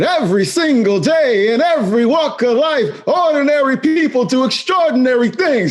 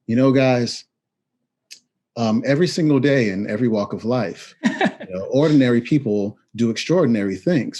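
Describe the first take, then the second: First: It is said with great enthusiasm. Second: It is said flatly, without enthusiasm.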